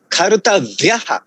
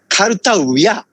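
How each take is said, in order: First: The word ends with an added breathy 'ha' syllable. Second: The word ends on 'a' with no added syllable. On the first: "I think it's a correct pronunciation" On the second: "most Indian people pronounce it karutavya"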